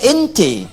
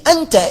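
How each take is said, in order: First: The vowels are fronted toward 'e' sounds. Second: The vowels are open 'a' sounds. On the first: "dia E bilangnya" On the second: "kalau dibacakan A"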